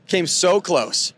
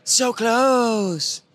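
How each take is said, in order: First: Said in the usual way. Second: So close pitched up and held; stretched emphasis. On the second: Real, not acted. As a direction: close drawn out high. Retelling near win.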